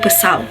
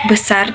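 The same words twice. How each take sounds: First: The final consonant is an L. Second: The final consonant is a flapped R. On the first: A young child's pronunciation. "they say L" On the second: The standard adult pronunciation. "when say R"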